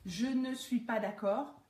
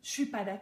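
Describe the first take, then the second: First: The words are said fully and separately. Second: The opening words merge into one short syllable. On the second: "ça donne"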